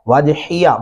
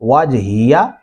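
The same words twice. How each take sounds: First: The h sound is thin and light. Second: The h sound is heavy and deep. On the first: The speaker calls it wrong. "बारीक नहीं पढ़ेंगे" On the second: The speaker calls it right. "हा मोटा है"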